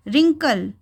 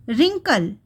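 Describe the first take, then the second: First: रिंकल said as rinkal, the W not heard; silent W. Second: रिंकल with the W left silent, said as rinkal. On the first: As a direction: say रिंकल starting straight on the R. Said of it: "लिखा है डब्ल्यू, पढ़ा नहीं।". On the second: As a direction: say रिंकल with no W sound at the start. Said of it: "डब्ल्यू नहीं पढ़ा हमने इसे". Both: Shown as a demonstration.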